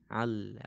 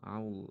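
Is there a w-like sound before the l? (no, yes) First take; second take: no; yes. First: The vowel goes straight into the l. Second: A w-like glide comes before the l. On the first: The speaker calls it right. "coba langsungkan ke lam" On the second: The speaker calls it wrong. "masih seperti ada waw yang menghalangi antara huruf sebelum lam dengan lam"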